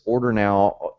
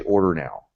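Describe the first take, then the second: First: Said in the usual way. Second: Wrong button text. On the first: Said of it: "We have already tested this". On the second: Shown as a demonstration. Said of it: "Don't say".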